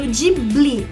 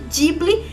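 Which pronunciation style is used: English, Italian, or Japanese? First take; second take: English; Italian. First: It is pronounced in an English-like way. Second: It is pronounced in an Italian-like way. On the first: "como é dito em inglês" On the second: "eu prefiro falar Ghibli, porque eu acredito que a língua portuguesa está muito próxima da, da língua italiana"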